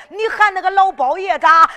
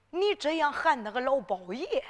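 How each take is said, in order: First: 老包爷 hit much louder and higher; indignant stress. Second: Said in the usual way. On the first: Acted. Godfather scolding the girl, "老包爷" punched much louder and higher.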